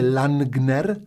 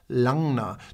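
First: The n and g are sounded separately. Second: The n and g blend into one sound. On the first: The speaker calls it wrong. "To nie mówię Langner" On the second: The speaker calls it right. "jak ja mówię Langner. ... takie nie N, nie G, takie coś pomiędzy"

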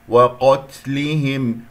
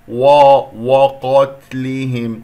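First: The w sound is light and thin. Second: The w sound is heavy and thickened. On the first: The speaker calls it right. "بس فقط عندنا القاف هي المفخمة" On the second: The speaker calls it wrong. "يعني فخمت الواو لأنها جاورت القاف"

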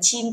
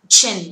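First: The vowel is long. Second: The vowel is short. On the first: The speaker calls it wrong. "Không đọc là chin" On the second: The speaker calls it right. "âm này là âm y ngắn"

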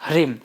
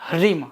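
The two takes are said the same way.

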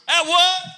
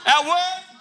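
First: It is said in a booming evangelistic voice. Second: It is said in his normal voice.

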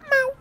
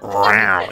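First: The meow sounds gentle and non-aggressive. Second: The meow sounds aggressive.

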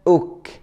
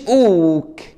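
First: The vowel is held for a medium length. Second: The vowel is drawn out long. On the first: The speaker calls it right. "بتاخدها اوك" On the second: The speaker calls it wrong. "مش اوك"

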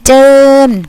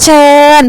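First: The word begins with a j sound. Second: The word begins with a ch sound. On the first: This is the Northern dialect form. "ภาษาเหนือจะออกเสียงเป็นเจิญ" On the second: This is the standard Thai form. "ภาษามาตรฐานคำว่าเชิญ"

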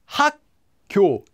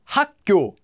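First: The word is said slowly. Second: The word is said at normal speed. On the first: "I'll say it slowly" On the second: "If you try to say this at any normal speed"

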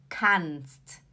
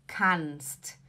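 No difference in how they are said.

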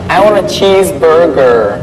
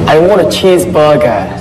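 First: It is said in an American accent. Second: It is said in a British accent. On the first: "Ngobrol tapi pakai aksen Amerika" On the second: "British. ... R-nya nggak ada"

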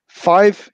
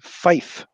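First: The word ends in a 'v' sound. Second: The word ends in an 'f' sound.

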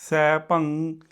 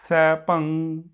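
The two takes are said the same way.

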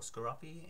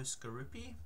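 First: The name is said in an Australian way. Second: The name is said in a non-Australian way.

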